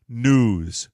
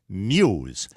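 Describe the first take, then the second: First: The word is said without a glide: nooz. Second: The word is said with a y glide: nyooz. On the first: The speaker calls it wrong. "not news" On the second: The speaker calls it right. "This is the proper way to say new"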